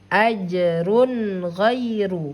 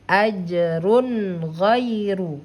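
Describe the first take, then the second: Both takes have the same delivery.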